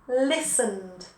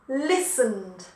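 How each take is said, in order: The two takes are said the same way.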